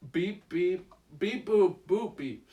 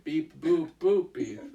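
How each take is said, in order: First: Wrong beeps; beeping like a little robot; toy robot voice. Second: Corrected beeps; toy robot voice. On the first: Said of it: "Sorry, I, I said beep, beep. That's not right". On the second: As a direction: beep boop boop beep like a toy robot. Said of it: "There we go". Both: Shown as a demonstration.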